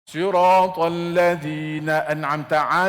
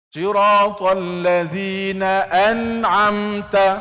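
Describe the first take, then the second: First: It is recited quickly, rushing through the words. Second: It is recited at a moderate, even speed. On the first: The speaker calls it wrong. "Yang salahnya kalau dia cepat" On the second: The speaker calls it right. "begitu saja"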